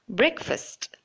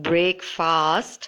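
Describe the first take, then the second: First: It is said as one short word. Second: It is said as two separate full words. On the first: The speaker calls it right. "It should be short" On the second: The speaker calls it wrong. "not not break fast"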